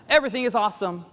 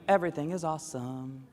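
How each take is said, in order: First: Higher, louder Lego movie cheer; sing-songy overexcited American; mock enthusiasm. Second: Said in the usual way. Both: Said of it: "It's like the Lego movie".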